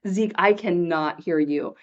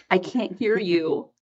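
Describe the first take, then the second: First: Slow, word by word, "cannot" spelled out; retold firm repeat, separating "I cannot hear you"; emphatic CANNOT. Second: Slow, measured "can't hear you"; retold slow reply. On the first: Repeats it emphatically to whispering child. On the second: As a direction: draw it out for a child who keeps whispering. Retold reply to whispering child.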